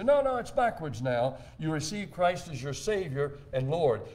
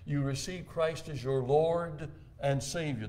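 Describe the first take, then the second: First: Mock objection. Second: Slow, even delivery with weight on "Lord"; the usual phrase. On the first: Preacher imitating critics who insist the order is backwards, mildly mocking. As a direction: playfully mimic the correcting theologians. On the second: Shown as a demonstration. Preacher quoting the common confession, slow and deliberate. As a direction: lean on "Lord" and let "Savior" follow. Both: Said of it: "They say".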